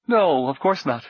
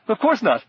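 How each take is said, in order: First: Nervous laugh. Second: Much higher, giggly nervous squeak; hysterical giggle. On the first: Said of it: "The man laughed, loudly and nervously". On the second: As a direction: let it crack up into a giggle. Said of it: "rather like a hysterical giggle". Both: Acted.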